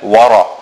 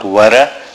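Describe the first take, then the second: First: The r sound is heavy and full. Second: The r sound is light and thin. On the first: The speaker calls it right. "The ra is full mouth" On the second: The speaker calls it wrong. "It is not wara"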